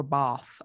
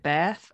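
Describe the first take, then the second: First: Bath with a long ah, bahth; Queen's English pronunciation. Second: Bath with the short a of cat; flat American a in Bath, as in cat; short-a pronunciation. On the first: Co-host comparing English accents, Queen's English bahth. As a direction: open the vowel of Bath to ah. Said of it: "and Queen's English". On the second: Co-host comparing English accents, short a in Bath. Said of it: "difference between English and". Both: Shown as a demonstration.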